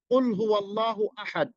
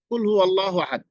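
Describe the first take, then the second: First: The first word starts with a deep, thick q. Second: The first word starts with a light, thin k. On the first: Say, O Prophet. The speaker calls it right. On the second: Eat. The speaker calls it wrong.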